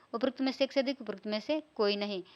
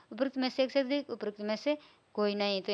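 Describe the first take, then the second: Both takes have the same delivery.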